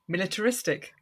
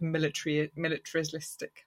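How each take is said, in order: First: The word comes out clean and fluent. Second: The word comes out garbled and stumbled. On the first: The speaker calls it right. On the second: The speaker calls it wrong.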